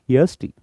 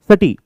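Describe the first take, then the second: First: It is spoken as separate letters. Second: It is run together as one word. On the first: The speaker calls it right. "We always say S T" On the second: The speaker calls it wrong. "We never say SATI"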